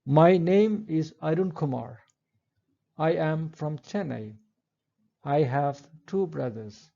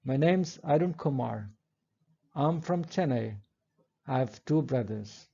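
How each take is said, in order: First: "My name is", "I am" and "I have" each said fully, unreduced; full forms. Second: "name's", "I'm" and reduced "I have" run together as weak forms; contracted forms. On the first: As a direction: say every helping verb in full, no contractions. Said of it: "Let's look at the following sentences". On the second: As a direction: glide the helping verbs into contractions. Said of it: "So it's better to say". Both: Shown as a demonstration.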